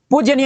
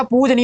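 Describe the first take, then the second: First: पूजनीय said as pooj-ya-neeya; mistaken extra y. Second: पूजनीय as pooj-neeya; corrected, no y. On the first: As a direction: put a y after j in पूजनीय. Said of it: "नहीं होता". (पूजनीय, ज के बाद य) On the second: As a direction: say पूजनीय with j straight into n. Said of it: "होता है". (पूजनीय, बिना य का ज) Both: Shown as a demonstration.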